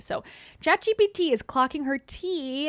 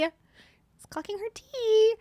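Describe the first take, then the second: First: Said in the usual way. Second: "It's clocking her tea" said higher and slower, stretching "tea"; "It's clocking her tea" drawn out up high, a playful echo; sassy high repeat. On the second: Shown as a demonstration.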